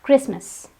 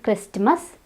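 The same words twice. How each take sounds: First: Christmas in two syllables without T; silent T. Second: Christmas with T before the M; T wrongly sounded. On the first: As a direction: say Christmas as KRIS-mus. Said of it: "the T is silent". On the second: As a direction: say Christmas as KRIST-mus. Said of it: "It's not Christmas". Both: Shown as a demonstration.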